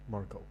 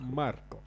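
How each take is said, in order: First: The name is said in a plain accent. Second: The name is said in an Italian accent.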